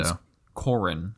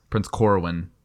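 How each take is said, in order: First: "Corrin" with no W, slower and softer; name correction. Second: "Corwin" said with an added W; mispronounced name. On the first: Correcting the co-host's misreading, "Corrin" without the W. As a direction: quietly correct it to "Corrin", two syllables without W. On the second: Co-host misreading the prince's name, "Corwin" with a W. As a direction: put a W into the middle of "Corwin". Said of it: "I added a W in there". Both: Real, not acted.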